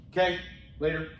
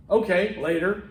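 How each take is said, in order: First: "Okay" cut to just kay, then "later"; slurred shorthand. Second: "Okay" with its full O, then "later"; articulated form. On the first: Teacher showing the shortened sign-off, slurred shorthand. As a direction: drop the O of "Okay" and toss off "later". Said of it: "we can shorten things". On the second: Teacher showing the full sign-off, articulated. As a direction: sound both syllables of "Okay" clearly. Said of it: "Instead of saying". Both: Shown as a demonstration.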